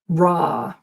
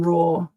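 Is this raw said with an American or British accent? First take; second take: American; British. First: The vowel is an open ah sound. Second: The vowel is a rounded or sound. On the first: "like law in America sounds more like the la" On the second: "rather than raw for the British"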